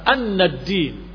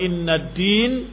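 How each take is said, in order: First: The word begins with an 'a' vowel. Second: The word begins with an 'i' vowel. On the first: "dibaca annad-din" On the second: "sedangkan yang kedua innad-din"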